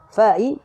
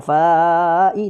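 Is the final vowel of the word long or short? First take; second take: short; long. First: The final vowel is kept short. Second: The final vowel is drawn out long. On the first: The speaker calls it right. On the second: The speaker calls it wrong.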